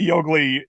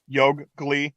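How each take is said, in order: First: The g sound is said once, single. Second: The g sound is held as double. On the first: "if you just say Yogli" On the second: "it's like a double G"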